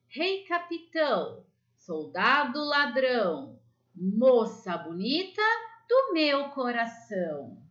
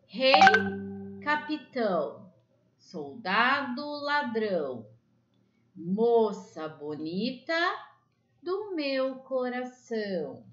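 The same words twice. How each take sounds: First: The rhyme is recited at the quickest pace. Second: The rhyme is recited at a quicker pace. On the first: "agora vai um pouco mais rapidinho" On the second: "Agora eu vou ler um pouquinho mais rápido"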